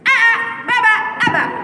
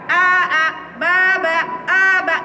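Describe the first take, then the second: First: The vowels are short and read quickly. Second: The vowels are drawn out long. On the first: The speaker calls it right. "Maka kata ini kamu baca cepat. Tapi ada jeda" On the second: The speaker calls it wrong.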